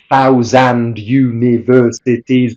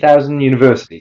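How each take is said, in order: First: The final d of thousand is clearly pronounced. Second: The final d of thousand is dropped. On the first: The speaker calls it wrong. "Why we don't say" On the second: The speaker calls it right. "but ... The t and the d will disappear"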